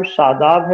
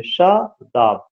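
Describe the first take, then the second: First: Said in the usual way. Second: Shadab slowly broken into शा and दाब; syllable by syllable. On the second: Shown as a demonstration. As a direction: pause between the two syllables of Shadab. (Shadab को धीरे से तोड़कर, शा... दाब) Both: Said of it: "उसमें दो सिलेबल है".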